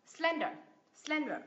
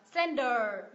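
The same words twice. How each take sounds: First: SLEN in "Slender" strong, light falling ending; first-syllable stress. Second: "slender" with a long, heavy second syllable; wrong final stress. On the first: Teacher corrects Slender, stress on the first syllable. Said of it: "nhấn tiếp thứ nhất". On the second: Teacher shows the mistake in slender, stressing the last syllable. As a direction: push the weight onto the end of "slender". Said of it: "Thay vì đọc là". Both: Shown as a demonstration.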